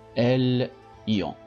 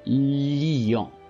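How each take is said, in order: First: The word is split into separate parts. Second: The word is said smoothly as one unit. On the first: The speaker calls it wrong. "dis pas L, ion, non" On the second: The speaker calls it right.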